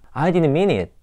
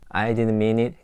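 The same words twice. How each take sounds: First: It is said with strong, acted emotion. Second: It is said flatly, without feeling. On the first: The speaker calls it right. "이렇게 해보는 거죠" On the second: The speaker calls it wrong. "가 아니라"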